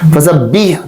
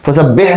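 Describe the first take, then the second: First: The final vowel is a clear 'ee' sound. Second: The final vowel is a long 'ay' sound. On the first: The speaker calls it right. "ये एक्चुअल क्या है? फसा बी" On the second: The speaker calls it wrong. "फसा बेह नहीं है"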